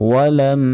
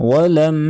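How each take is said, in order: Both takes have the same delivery.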